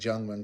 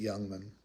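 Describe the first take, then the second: First: The name begins with a J sound. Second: The name begins with a Y sound. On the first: The speaker calls it wrong. "I keep saying Jungman because it's with a J" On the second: The speaker calls it right. "I'm pretty sure you pronounce it Youngman"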